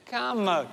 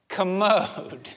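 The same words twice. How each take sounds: First: "Calm mode" as two clear words, long CALM then MODE; right phrase. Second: "commode" said kuh-MODE, one word stressed on the end; the misheard "commode", kuh-MODE; wrong word. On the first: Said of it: "I never said commode". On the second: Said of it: "I never said". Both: Shown as a demonstration.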